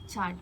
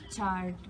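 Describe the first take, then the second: First: The R sound is silent. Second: The R sound is clearly pronounced. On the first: "you don't really uh, listen to the letter R" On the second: "It's supposed to be said as chart"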